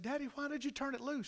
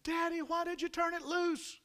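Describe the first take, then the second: First: Put-on subdued, high-pitched child's question; little girl. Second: Very high, sustained wail; high-pitched, distressed child's protest; imitated child's screaming. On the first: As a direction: ask Daddy in a small, high voice. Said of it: "And she said". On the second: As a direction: cry out like a panicked little girl. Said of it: "she starts screaming again".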